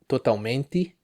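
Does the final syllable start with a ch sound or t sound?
t sound. The final te keeps a plain t. "another Brazilian accent that it's uh, acceptable and it's common in the northeast area of Brazil"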